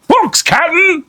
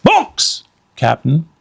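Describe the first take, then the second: First: High, loud shout down; Pinky shouting from the treehouse; shouting pirate. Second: Said in the usual way. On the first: Acted. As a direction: call it down to the captain. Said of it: "Pinky shouted".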